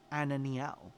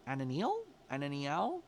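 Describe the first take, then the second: First: Ananiel with a falling, tentative end; unsure pronunciation. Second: Ananiel with a rising, questioning end; questioning pronunciation. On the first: Reader tries the card's name, unsure, tone falling. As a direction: try out Ananiel, letting it drop at the end. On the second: Reader unsure how to say the card's name, questioning rise. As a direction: try Ananiel as a question, lifting the last syllable. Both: Real, not acted. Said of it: "not really sure how to say it".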